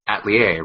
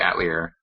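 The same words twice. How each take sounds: First: The word is said with French pronunciation. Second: The word is said without French pronunciation. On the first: This is how the original language says it. "it's a French word, so it probably should be Atelier" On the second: This is how the game's dub says it. "But in this one, they say Atelier"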